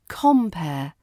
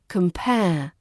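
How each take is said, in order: First: The stress is on the first syllable. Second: The stress is on the second syllable. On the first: A host or MC at a show. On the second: To examine similarities and differences.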